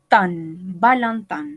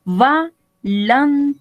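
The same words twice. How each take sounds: First: Valentin repeated slowly with nasal vowels. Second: Valentin with both vowels nasal, said slowly. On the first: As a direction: say Valentin again, slow and nasal. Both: Shown as a demonstration. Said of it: "parce que c'est nasal".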